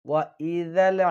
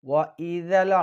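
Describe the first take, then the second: No difference in how they are said.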